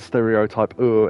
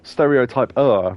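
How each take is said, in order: First: It is said with a Japanese accent. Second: It is said with a plain English accent. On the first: The speaker calls it wrong. "in a Japanese accent" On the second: The speaker calls it right. "I think stereotype-er rather than"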